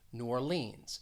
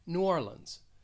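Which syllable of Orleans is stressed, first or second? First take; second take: second; first. First: The stress is on the second syllable of Orleans. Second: The stress is on the first syllable of Orleans. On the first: "I'm stressing that second syllable" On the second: "Others may stress the first syllable and say"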